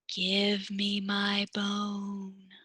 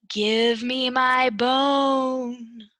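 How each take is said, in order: First: It is said in a tiny, soft voice. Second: It is said a little bit louder.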